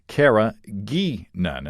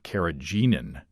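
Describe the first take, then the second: First: The middle g is hard, as in geek. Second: The middle g is soft, like a j. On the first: The speaker calls it right. "the "gee" sounds like geek" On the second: The speaker calls it wrong. "I guess I pronounced it carrageenan last week"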